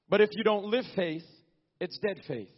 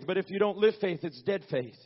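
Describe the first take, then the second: First: The phrase is spoken at a slower pace. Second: The phrase is spoken at a normal pace.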